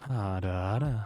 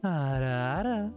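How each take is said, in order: First: The voice is pitched relatively deep. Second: The voice is pitched noticeably higher. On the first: "Relatively deep" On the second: "I'll give you a higher pitched one"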